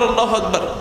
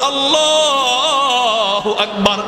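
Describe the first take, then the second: First: It is said quietly and softly. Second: It is said loudly and openly. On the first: "আস্তে করে বলে" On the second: "জোরে বলে"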